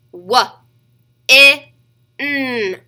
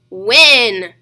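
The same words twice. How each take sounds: First: "W, I, N" as sounds wuh, short i, nnn; sounded out. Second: Said in the usual way. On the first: Shown as a demonstration. Teacher tapping out a word for children, sounded out. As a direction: separate "W, I, N" with pauses, loud short i. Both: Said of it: "Get your tapper out and ready".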